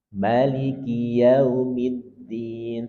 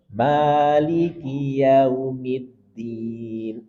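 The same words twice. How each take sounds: First: The first vowel of Maliki is kept short. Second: The first vowel of Maliki is held long. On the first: "boleh juga dibaca pendek" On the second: "Boleh dibaca panjang"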